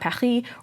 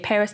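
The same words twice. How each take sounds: First: It is said with a French pronunciation. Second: It is said with an English pronunciation. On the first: This is how locals say it. "not Paris" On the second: This is the English version of the name. "I say Paris"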